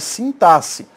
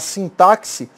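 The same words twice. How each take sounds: First: The x is pronounced as a plain s. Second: The x is pronounced as ks, like táxi. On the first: The speaker calls it right. "o certo é falar" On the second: The speaker calls it wrong. "Tem gente que fala sintaxe. Sintaxe é sindicato do táxi"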